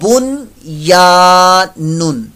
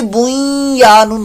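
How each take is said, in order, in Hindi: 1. 'y' से पहले 'n' साफ़ बोला जाता है। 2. 'n' आगे की 'y' में मिल जाता है। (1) "इजहार मुतलक का कायदा लगेगा" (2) "बुई या नून होना चाहिए था, लेकिन ऐसा नहीं है"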